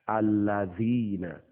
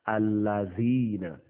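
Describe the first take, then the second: No difference in how they are said.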